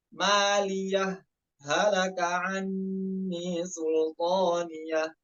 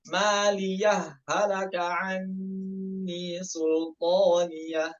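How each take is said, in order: First: A brief pause separates maliyah from halaka. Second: Maliyah runs straight into halaka without pausing. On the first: "yang lebih dipraktekkan yaitu as-saktah sama izhar" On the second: "Contohnya idgham bagaimana?"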